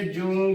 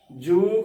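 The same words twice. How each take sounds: First: ਜੂ nasalised, like joon; demonstrated mistake, ਜੂ with tippi nasal; wrong nasal vowel. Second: ਜੂ with a long, plain oo; careful ਜੂ, pure oral vowel; correct oral vowel. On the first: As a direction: push the oo of ਜੂ through the nose. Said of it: "ਜੂ ਗਲਤ ਉਚਾਰਨ ਹੈ". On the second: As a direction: hold ਜੂ with no nasal sound. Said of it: "ਜੂ ਕਰਨਾ ਹੈ". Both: Shown as a demonstration.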